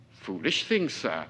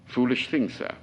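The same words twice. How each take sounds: First: Said in the usual way. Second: With pride. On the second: Acted. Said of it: "Don't say it with so much pride".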